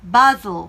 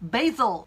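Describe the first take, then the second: First: It is said with a British accent. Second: It is said with an American accent. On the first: "영국 발음에서는요" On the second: "미국 발음 기준으로 이렇게 발음하시는 게 맞아요"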